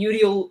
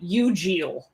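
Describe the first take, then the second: First: The middle does not sound like congeal. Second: The middle sounds like congeal. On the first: This is the speaker's own way of saying it. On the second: This is how the show chose to say it.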